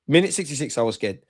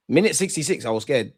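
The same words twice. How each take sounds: The two takes are said the same way.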